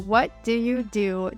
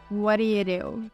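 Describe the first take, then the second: First: Each word is fully and separately pronounced. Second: The words are reduced and blended together. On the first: "what do you do turns into" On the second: "turns into what do you do"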